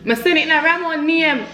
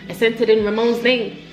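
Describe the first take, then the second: First: It is said in an imitated, different accent. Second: It is said in the speaker's ordinary accent.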